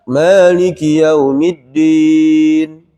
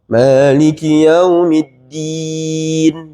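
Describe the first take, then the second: First: It is said without smiling, with a fuller sound. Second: It is said smiling, with a thin bright sound. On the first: The speaker calls it wrong. "Kalau tidak" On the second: The speaker calls it right. "gigi bawah. ... Nipis"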